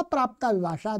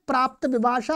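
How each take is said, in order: First: प्राप्ता with a long final aa; long final vowel. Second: प्राप्त with a short final a; short final vowel. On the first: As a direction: say प्राप्ता विभाषा, holding the aa ending of प्राप्ता. (प्राप्ता का अंतिम आ दीर्घ) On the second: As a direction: say प्राप्त विभाषा, keeping the end of प्राप्त short. (प्राप्त का अंतिम अ ह्रस्व) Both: Shown as a demonstration. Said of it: "दोनों प्रकार से बोलते".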